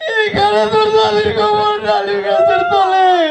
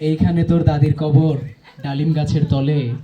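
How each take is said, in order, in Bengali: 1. পুরোটা সময় কাঁদতে কাঁদতে আবৃত্তি করা হয়েছে। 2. এটি সাধারণ, স্বাভাবিক ভাবে আবৃত্তি করা হয়েছে। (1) "কান্না করে শুধু" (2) "সাধারণ ভাবে কেউ একজন পড়ে"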